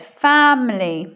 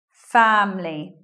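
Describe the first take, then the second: First: It is said with three syllables. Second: It is said with two syllables. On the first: "I didn't say it with elision that time" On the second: "just with two syllables"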